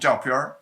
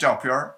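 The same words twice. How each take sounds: First: The second syllable is in high level tone. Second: The same.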